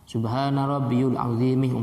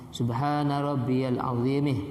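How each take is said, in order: First: The vowel after rabbiy is a u sound. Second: The vowel after rabbiy is an a sound. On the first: The speaker calls it wrong. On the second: The speaker calls it right.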